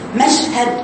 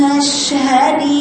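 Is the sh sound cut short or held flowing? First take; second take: cut short; held. First: The sh sound is cut short without flow. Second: The sh sound is held with flowing air. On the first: The speaker calls it wrong. "ما تقولي مشهد" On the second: The speaker calls it right. "بيني أصل اللي هو زمن الرخاوة فيها"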